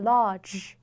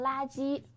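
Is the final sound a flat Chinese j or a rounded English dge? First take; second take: English dge; Chinese j. First: It ends with a rounded English dge sound. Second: It ends with a flat, unrounded Chinese j sound. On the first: The speaker calls it right. "是ch j，所以是large" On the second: The speaker calls it wrong. "不能读成垃圾，因为它不是中文当中很平展的这样一个声母j"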